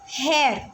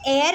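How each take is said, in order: First: The word begins with an h sound. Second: The word begins with a vowel sound. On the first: The speaker calls it right. "हा की आवाज़ आ रही है" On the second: The speaker calls it wrong. "हम इसे एयर नहीं पढ़ रहे हैं"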